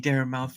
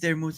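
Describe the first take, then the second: First: The last part sounds like the word 'mouth'. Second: The last part does not sound like 'mouth'. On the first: The speaker calls it wrong. "they say Dara Mouth for some odd reason" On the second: The speaker calls it right. "my name is Dara Muth"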